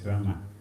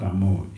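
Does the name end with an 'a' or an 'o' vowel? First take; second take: a vowel; o vowel. First: The name ends with an 'a' vowel. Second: The name ends with an 'o' vowel. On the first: The speaker calls it right. "it is Rama or Ram" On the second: The speaker calls it wrong. "that is Bengali style"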